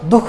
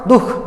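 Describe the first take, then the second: First: No light h breath follows the first syllable. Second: A light h breath follows the first syllable. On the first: The speaker calls it wrong. "दुख नहीं" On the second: The speaker calls it right. "वहां ह का हल्का उच्चारण होता है"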